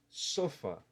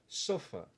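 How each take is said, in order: Both takes have the same delivery.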